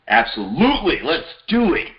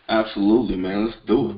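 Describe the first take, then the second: First: It is said in an excited way. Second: It is said in a flat, unexcited way.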